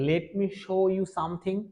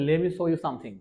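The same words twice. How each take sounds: First: Let me is said fully, with a clear t. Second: Let me is said quickly, blended into lemme. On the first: The speaker calls it wrong. "এরকম করে বলা যাবে না" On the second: The speaker calls it right. "আমাদেরকে বলতে হবে ... দ্রুত উচ্চারণ করে ফেলে তখন এটাকে লেমি বলতে হবে"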